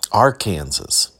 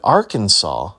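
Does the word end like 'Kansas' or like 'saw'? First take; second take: Kansas; saw. First: The ending sounds like the word 'Kansas'. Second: The ending sounds like 'saw' with no final s.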